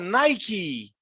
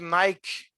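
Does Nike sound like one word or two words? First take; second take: two words; one word. First: Nike is split apart, like two separate words. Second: Nike is said smoothly, like one single word. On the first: The speaker calls it right. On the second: The speaker calls it wrong.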